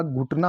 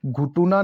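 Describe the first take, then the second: First: Said in the usual way. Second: घुटुना with an extra u; three syllables in घुटुना, टु in the middle; mispronounced घुटना. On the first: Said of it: "घुटना होता है". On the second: Shown as a demonstration. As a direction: say घुटुना as "ghu-tu-naa". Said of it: "घुटुना नहीं होता".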